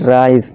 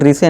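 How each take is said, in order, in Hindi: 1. यह एक अक्षर में बोला जाता है, 'rice'। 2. यह दो अक्षरों में बोला जाता है, 'ri-se'। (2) "इसे रिसे नहीं"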